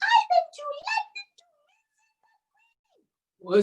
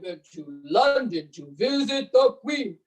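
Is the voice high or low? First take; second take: high; low. First: It is said in a high voice. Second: It is said in a low voice.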